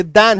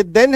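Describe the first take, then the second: First: "दैन" with the wider ai vowel of than; double e vowel. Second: "देन" with the narrower e of then; single e vowel. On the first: Teacher contrasts two words for students, open-vowel "दैन". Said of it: "एक double एकार". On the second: Teacher contrasts two words for students, narrow-vowel "देन". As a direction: say "देन" with a single e-matra sound. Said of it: "एक single एकार". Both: Shown as a demonstration.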